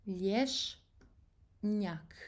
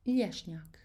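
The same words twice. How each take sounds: First: "Lješnjak" in two slow, separated halves; split into syllables. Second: Said in the usual way. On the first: Shown as a demonstration. Teacher breaking the word down for learners, "Lješnjak" syllable by syllable. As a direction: say "Lješnjak" slowly, pausing before the second syllable.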